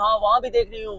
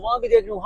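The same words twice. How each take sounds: First: Lightly mimicked, a touch softer, वहाँ said as a boast; understated mock of a speaker pointing around; mocking Maryam Nawaz. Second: Much higher mock voice, देख pitched up and falling; hammed-up high squeak of a boasting speaker; mocking Maryam Nawaz. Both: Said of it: "और इशारा कर रही".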